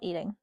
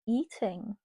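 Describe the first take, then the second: First: The word is said plainly, without flair. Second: The word is said with lively, sassy flair. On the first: Consuming food. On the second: Doing something impressively well.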